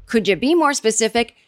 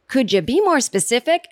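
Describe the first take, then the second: First: Said in the usual way. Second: Carrie's dry comeback. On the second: Retold or imitated. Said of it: "And Carrie says".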